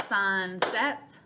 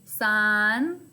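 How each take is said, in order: First: Sunset clapped out as sun, set; clapped syllables. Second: Sunset said louder, each vowel opened wide; exaggerated mouth opening. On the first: Teacher claps out Sunset for the class, split into beats. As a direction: clap each beat of Sunset. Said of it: "I can also clap that out". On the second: Teacher shows her mouth opening on Sunset, exaggerated. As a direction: stretch your mouth open on both vowels of Sunset. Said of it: "I can watch the opening of my mouth". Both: Shown as a demonstration.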